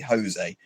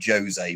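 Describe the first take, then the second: First: It begins with a breathy H-like sound. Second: It begins with an English J sound. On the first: "but they'd say Jose" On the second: "it's spelled like Jose"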